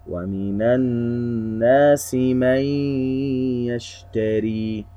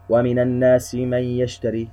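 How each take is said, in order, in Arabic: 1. تُمَدّ الغنة حركتين. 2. تُقطع الغنة قصيرة. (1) "يجب أن نركز على أن نعطي الغنة قدرها ... هكذا" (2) "ولا نقرأها كذا"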